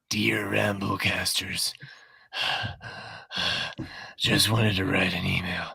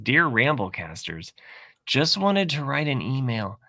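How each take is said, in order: First: It is read in a breathy, creepy put-on voice. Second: It is read in a plain, normal voice.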